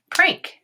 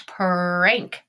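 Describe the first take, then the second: First: Said in the usual way. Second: "Prank" stretched into separate sounds; sounded out. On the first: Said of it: "and say it". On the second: Shown as a demonstration. Teacher modeling for students, "Prank" broken into sounds. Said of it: "tap this word out and say it".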